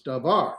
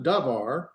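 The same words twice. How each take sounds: First: "davar" with the accent on the last syllable, var; short da, then lean on var in "davar"; stress on VAR. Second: "davar" with the accent wrongly on the first syllable, da; slow "davar", punching da and dropping var; stress on DA. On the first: Teacher correcting to Hebrew end accent, "davar" stressed on var. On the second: Teacher showing students the wrong accent, "davar" stressed on da. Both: Shown as a demonstration. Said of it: "put the accent over here in the var".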